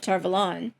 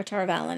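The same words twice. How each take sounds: First: "Tar Valon" with a reduced "Val" and open "lon"; first place-name pronunciation. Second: "Tar Valon" with a clear "VAL" and weak ending; alternative place-name pronunciation. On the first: Host identifying the flame to viewers, "Tar Valon" said tar-vuh-LAHN. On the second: Host unsure of the name, "Tar Valon" offered as tar-VAL-un. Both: Shown as a demonstration. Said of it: "don't know how I'm pronouncing it".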